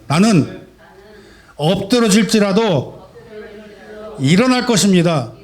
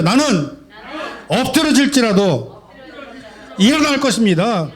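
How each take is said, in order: First: Strong declaration. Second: Even stronger declaration. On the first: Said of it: "저와 함께 힘차게 고백하고 선포하시기 바랍니다". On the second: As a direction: proclaim it with more force, breaking into a laugh. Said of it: "더 힘차게 한번 해볼까요?". (더 힘차게 웃으며 외치는 선포) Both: Real, not acted.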